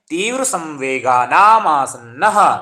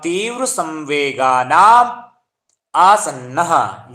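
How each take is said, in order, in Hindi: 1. आखिरी शब्द जुड़कर एक साथ बोले जाते हैं। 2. आखिरी शब्द अलग-अलग बोले जाते हैं। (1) "और संस्कृत में कैसे पढ़ना है? ... ऐसे करके पढ़ना है" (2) "ये आपका संधि विच्छेद हो गया"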